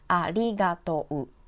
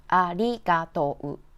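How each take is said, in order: The two takes are said the same way.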